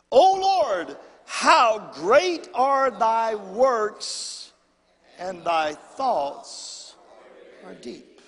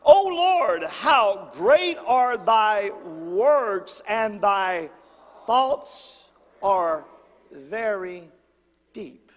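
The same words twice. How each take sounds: First: Louder, slower call-and-response reading; reading it again. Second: Slow, loud, drawn-out scripture reading; congregational reading. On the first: Pastor asking the church to read it again, slow and loud. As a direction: push them to read it with him. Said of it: "Let's do it again". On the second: Pastor leading the congregation in reading, slow and loud. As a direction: lead the church in reading aloud. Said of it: "let's read this out loud together". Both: Shown as a demonstration.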